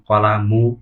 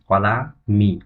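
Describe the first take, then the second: First: The word ends in the vowel u. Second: The word ends in the vowel i. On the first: The speaker calls it wrong. "তাহলেও কিন্তু তার উচ্চারণটি ভুল হবে" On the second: The speaker calls it right. "সঠিক উচ্চারণ হচ্ছে"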